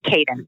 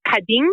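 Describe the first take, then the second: First: "Caden" said the English way, KAY-den; "Caden" with a long English A; anglicized pronunciation. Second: "Kadın" said the Turkish way, kah-DIN; "Kadın" with an ah and a final stressed syllable; Turkish pronunciation. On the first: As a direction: say "Caden" anglicized, stressed on the first syllable. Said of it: "didn't think that we would be able to push that". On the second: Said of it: "it's pronounced Kadın". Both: Shown as a demonstration.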